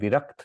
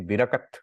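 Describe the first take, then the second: First: The final consonants are said together as a cluster. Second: A vowel is inserted between the final consonants. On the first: "instead of saying Virakt" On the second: "sometimes Punjabis, so they don't say Yuktakshar"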